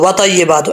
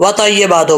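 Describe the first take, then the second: Both takes have the same delivery.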